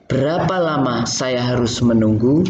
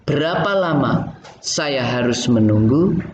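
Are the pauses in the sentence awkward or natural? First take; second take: natural; natural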